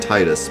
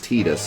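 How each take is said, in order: First: The first syllable sounds like 'tie'. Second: The first syllable sounds like 'tee'. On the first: "I always said Titus because T I would be Thai" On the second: "the Square Enix way of saying it is Titus"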